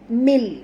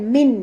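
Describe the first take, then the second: First: The word ends with an l sound. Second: The word ends with an n sound. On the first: The speaker calls it right. "Mil, mil" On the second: The speaker calls it wrong. "bukan min"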